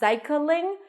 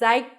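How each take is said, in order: First: A short vowel is added between k and l. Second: The k and l join with no vowel between. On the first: The speaker calls it wrong. "it's not cycling" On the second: The speaker calls it right. "but cycling"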